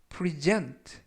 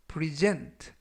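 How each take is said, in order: First: The stress is on the second syllable. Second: The stress is on the second syllable.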